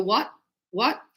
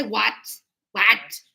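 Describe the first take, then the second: First: "What" with a light, unreleased T; soft final T. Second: "What" with a hard, released T; overdone final T. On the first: Teacher showing natural speech, soft final T. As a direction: barely release the T ending "What". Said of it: "there's still a T there". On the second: Teacher showing what not to say, overdone T. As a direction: spit out the T ending "What". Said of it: "I don't say". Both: Shown as a demonstration.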